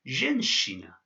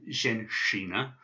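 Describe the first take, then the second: First: "zhenshina" said carefully; Russian word. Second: "zhenshina" with a plain hard sh; "zhenshina" given the wrong sh sound; wrong version. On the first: Teacher pronouncing "zhenshina" for students. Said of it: "this word is pronounced". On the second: Teacher giving the wrong "zhenshina" for contrast. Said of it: "So it's not a". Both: Shown as a demonstration.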